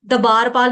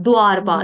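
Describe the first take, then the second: First: दबारपाल as da-baar-paal; दबारपाल broken into three beats; wrong split cluster. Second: द्वारपाल as dvaar-paal, d fused with v; lower, firm द्वारपाल in two beats; correct dvaar cluster. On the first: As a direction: demonstrate दबारपाल with an extra vowel after d. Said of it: "दबारपाल नहीं कहते". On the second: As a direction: model द्वारपाल with no vowel after d. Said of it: "क्या कहते हैं". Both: Shown as a demonstration.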